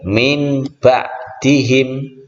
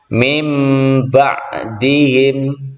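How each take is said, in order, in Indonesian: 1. Bunyi sengau sebelum b terdengar seperti n. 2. Bunyi sengau sebelum b terdengar seperti m. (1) "tidak boleh" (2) "Contoh dalam kalimat"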